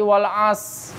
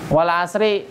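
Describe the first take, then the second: First: The word ends on s with no r. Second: The word ends with an added i vowel. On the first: "Ada yang parah lagi wal as. Hilang ro-nya" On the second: "Wal asri. Tapi berhenti"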